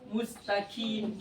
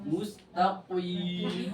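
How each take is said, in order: First: The q is said as a light k. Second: The q is said with exaggerated thickness. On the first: "Sebagian juga membaca qaf kaf" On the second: "Terlalu berlebihan"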